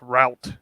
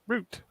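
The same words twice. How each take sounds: First: The word is said in an American accent. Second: The word is said in a British accent. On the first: "If you're American" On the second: "If you're British"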